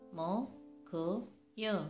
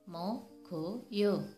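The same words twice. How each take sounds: No difference in how they are said.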